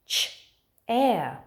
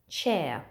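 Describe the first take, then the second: First: "Ch-air" as two separate sounds; sounded out. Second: Said in the usual way. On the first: Shown as a demonstration. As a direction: break "Ch-air" after the "ch". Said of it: "There's only two sound buttons in chair". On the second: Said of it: "but it only has two sounds".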